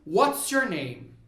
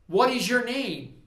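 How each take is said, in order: First: What and is are joined into one short word. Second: What and is are said as full separate words.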